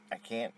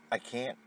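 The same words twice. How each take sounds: The two takes are said the same way.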